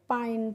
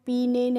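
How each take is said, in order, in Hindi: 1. स्वर की ध्वनि 'eye' जैसी है। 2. स्वर की ध्वनि 'ee' जैसी है। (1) "पाइन पढ़ते हैं" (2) "पीने नहीं पढ़ते हैं"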